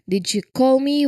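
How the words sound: The stress falls on the word call. Asks whether it was really a call and not something else. "Where we emphasize the word call"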